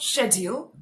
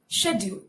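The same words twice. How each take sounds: First: "schedule" with a put-on British accent. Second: "schedule" as shed-yool, no put-on accent; British pronunciation, unaccented. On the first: Teacher showing what it is not, British accented. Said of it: "It's not schedule". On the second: Teacher correcting to the normal way, British pronunciation without accent. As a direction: say "schedule" plainly with a sh. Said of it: "I'm using the British pronunciation". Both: Shown as a demonstration.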